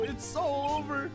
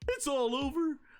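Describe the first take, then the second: First: It is said without a Shaggy impression. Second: It is said in a Shaggy impression.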